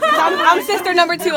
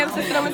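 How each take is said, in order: First: Loud announcement. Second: Said in the usual way. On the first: Real, not acted. Announcing herself as next speaker.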